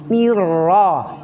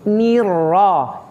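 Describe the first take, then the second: The two takes are said the same way.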